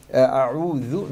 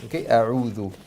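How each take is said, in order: First: A'udhu with a careless dh sound; wrong pronunciation. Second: A'udhu with a clear, proper dh; correct pronunciation. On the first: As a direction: say a'udhu the sloppy way the student did. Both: Shown as a demonstration. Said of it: "no a'udhu".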